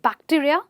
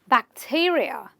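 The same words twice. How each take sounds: First: The stress is not on the second syllable. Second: The stress is on the second syllable. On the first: The speaker calls it wrong. "not bacteria" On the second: The speaker calls it right. "you will stress on the syllable right before this suffix"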